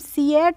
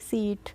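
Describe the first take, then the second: First: The vowels are split into two syllables. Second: The vowels merge into one long syllable. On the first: The speaker calls it wrong. "सी एट नहीं पढ़ेंगे" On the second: The speaker calls it right. "पढ़ेंगे सीट"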